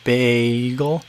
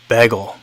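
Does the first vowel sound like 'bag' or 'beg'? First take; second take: bag; beg. First: The first vowel is a long 'bag' vowel. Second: The first vowel is a short 'beg' vowel. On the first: "pronounce it B A A A G L" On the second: "here in the Midwest, it's pronounced like bagel, like B E G L E"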